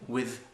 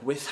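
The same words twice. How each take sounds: First: The th sound is voiced, with vocal cords vibrating. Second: The th sound is voiceless, without vocal cords. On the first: "tu vas être obligé donc de faire vibrer ton son T H" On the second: "j'ai pas besoin de cordes vocales sur le H"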